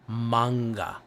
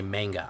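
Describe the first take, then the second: First: MANGA with an open "ah", MAHNG-guh; required pronunciation. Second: MANGA with a flat A, MANG-guh; forbidden pronunciation. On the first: Streamer showing how he must say it, MANGA as MAHNG-guh. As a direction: draw out the "ah" in MANGA. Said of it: "I have to say". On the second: Streamer showing what he can't say, MANGA as MANG-guh. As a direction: say MANGA to rhyme its first part with "hang". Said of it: "I also can't say". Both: Shown as a demonstration.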